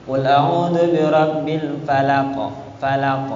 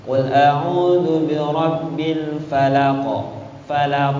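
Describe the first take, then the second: First: "falaq" with a thin, light front k, not from the throat; thin qaf. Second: "falaq" chanted slowly with a thin, light k; thin qaf again. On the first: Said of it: "Kan tipis ya". ("falaq" dengan qaf tipis seperti kaf) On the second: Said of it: "kalau tipis kan gini". ("falaq" dibaca tipis, salah) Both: Shown as a demonstration.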